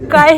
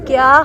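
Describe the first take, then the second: First: The word is said as 'kai' without a y-glide. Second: The word is said as 'kya' with a y-glide. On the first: The speaker calls it wrong. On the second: The speaker calls it right.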